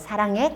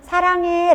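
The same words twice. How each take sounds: First: It is said briefly and plainly, without gushing. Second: It is said with heavy, gushing emotion. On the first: The affection is expressed without burdening the listener. "사랑해 깔끔하게" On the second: The speaker's feelings lead the message. "감성 중심은 사랑해 라고 하지만"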